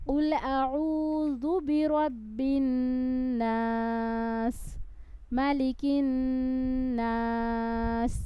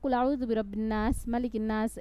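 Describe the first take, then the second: First: It is recited slowly, with long drawn-out vowels. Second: It is recited fast, without drawn-out vowels.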